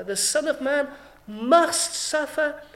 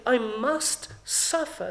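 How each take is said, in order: First: Slow and louder, "must" hit in "Son of Man must suffer"; stress on must. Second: Slow, "I" weighted heavily in "I must suffer"; stress on I. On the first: Preacher to the congregation, slow stress on "must". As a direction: press the word "must" down hard. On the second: Preacher voicing Jesus, slow emphatic "I". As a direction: linger on "I". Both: Shown as a demonstration. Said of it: "And it's emphatic".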